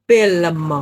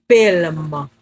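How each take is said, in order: Both takes have the same delivery.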